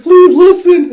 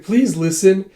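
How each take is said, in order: First: Very high, very loud acted yell; hammed-up frantic wail; desperate plea. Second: Higher, louder plea rising at the end; mildly exasperated acted plea; pleading. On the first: Girl pleads as horse takes off. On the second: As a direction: plead to be heard. Girl pleads with him.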